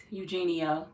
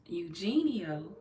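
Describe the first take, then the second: First: Said in the usual way. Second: Eugenio stretched out slowly, rising, unsure of it; checking the name. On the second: Shown as a demonstration. Rechecking a viewer's name aloud, slow and unsure.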